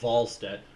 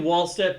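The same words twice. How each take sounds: First: The name starts with a V sound. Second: The name starts with a W sound. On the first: The speaker calls it right. "the W is pronounced like a V" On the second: The speaker calls it wrong. "I keep saying Wallstedt"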